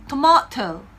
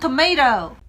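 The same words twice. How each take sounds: First: It is said in a British accent. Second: It is said in an American accent. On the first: "영국으로 넘어가시면은요 이렇게 발음합니다" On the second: "미국식 발음으로 할 때는"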